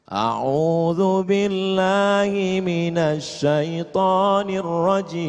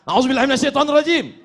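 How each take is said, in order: First: It is said in a calm voice. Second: It is said in an angry voice.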